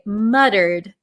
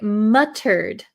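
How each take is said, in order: First: It is pronounced in an American way. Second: It is pronounced in a non-American way. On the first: "in my American English, I say muttered" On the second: "But you could say it muttered. Muttered is also okay"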